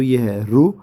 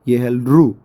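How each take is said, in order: First: रू with a rising tune; pronunciation demo. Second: रू with a falling tune; pronunciation demo. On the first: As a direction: say रू lifting at the end. (रू उठती आवाज़ में) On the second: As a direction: say रू dropping at the end. (रू गिरती आवाज़ में) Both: Shown as a demonstration. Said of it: "फिर से मैं बता देता हूँ".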